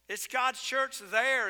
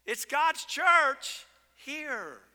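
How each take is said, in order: First: "there" hit and held at the end; stress on there. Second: "It's God's church here." slow, loud, rising high on "church"; stress on here. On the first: Leaning on "there", drawn out. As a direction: pastor to congregation, leaning on "there". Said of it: "repeat with there". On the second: Pastor hammering "here", loud and slow. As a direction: pastor to congregation, hammering "church" slowly and loudly. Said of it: "preacher stresses here vs there". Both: Real, not acted.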